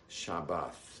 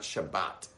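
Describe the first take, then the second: First: The word ends with a th sound. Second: The word ends with a t sound. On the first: The speaker calls it right. "It's actually Shabbath. ... the TH is right" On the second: The speaker calls it wrong. "and it's not Shabbat"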